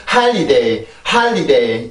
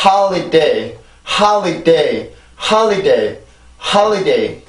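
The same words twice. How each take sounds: First: Holiday run together, later syllables left unstressed; wrong flat rhythm. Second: Holiday with a beat on ho, li and day, biggest on ho; every syllable stressed. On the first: Teacher showing what not to say, unstressed endings. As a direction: rattle off holiday, letting -liday drop away. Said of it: "이게 아니라". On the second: Teacher modelling the right rhythm, stressed beats throughout. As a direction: give each syllable of holiday its own small stress. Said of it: "이렇게 해서 소리가 만들어져야 돼요". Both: Shown as a demonstration.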